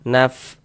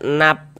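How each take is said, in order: First: The final consonant has breath flowing through it. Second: The final consonant is clipped with no airflow. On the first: The speaker calls it right. "harus ada nafas yang mengalir ketika kita mengucapkannya" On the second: The speaker calls it wrong. "jangan dibaca nap, nap begitu jangan"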